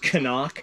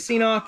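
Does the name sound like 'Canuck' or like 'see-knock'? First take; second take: Canuck; see-knock. First: The name is said like the word Canuck. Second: The name is not said like the word Canuck. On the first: This is the maker's intended pronunciation. "it's actually supposed to be pronounced Canuck" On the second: This is the speaker's personal preference. "I refuse to pronounce it like that. I say CNOC"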